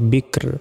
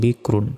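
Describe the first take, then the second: First: The word ends on a bare, vowelless 'r'. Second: The word ends with the syllable 'run'. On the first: The reader stops at this word. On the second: The reading continues without stopping.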